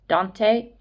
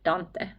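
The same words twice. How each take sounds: First: The name is said with an English pronunciation. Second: The name is said with a Finnish pronunciation. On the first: "is that how you pronounce that in English?" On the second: "in Finnish it would be more like Dante"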